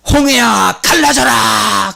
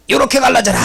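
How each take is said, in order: First: Loud, high, slow command to the sea; commanding shout. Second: Light, high, laughing version of the command; playful little command. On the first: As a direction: order the Red Sea apart with full force. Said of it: "모세가 뭔 말을 했을 거 아니야?". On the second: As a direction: toss it off casually, half joking. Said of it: "아마 이랬을 것 같아". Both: Retold or imitated.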